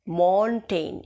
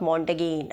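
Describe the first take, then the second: First: The g is silent in the name. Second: The g is sounded in the name. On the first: The speaker calls it right. "जी silent here" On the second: The speaker calls it wrong. "It is not मॉन्टेगेन"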